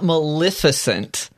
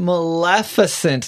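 First: The second syllable has an I vowel sound. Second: The second syllable has an E vowel sound. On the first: The speaker calls it wrong. "saying it with an I instead of an E" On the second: The speaker calls it right. "I grew up saying Maleficent"

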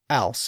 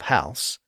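First: The word starts without an H sound. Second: The word starts with a clear H sound.

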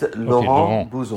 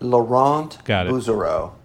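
First: The name is said with a French accent. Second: The name is said with an American accent.

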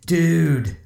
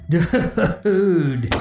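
First: It sounds surprised. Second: It is said while laughing.

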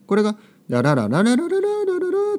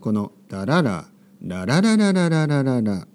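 First: The pitch does not fall steadily downward. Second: The pitch falls steadily from high to low. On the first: The speaker calls it wrong. "そういうふうにはならないですね。" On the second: The speaker calls it right. "日本語は必ず上から下に落ちてきますね。"

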